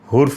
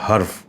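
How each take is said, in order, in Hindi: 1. पहले अक्षर में 'u' स्वर है। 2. पहले अक्षर में 'a' स्वर है। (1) "ये दोनों सूरतों में गलत है" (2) "ये दुरुस्त लफ्ज़ है"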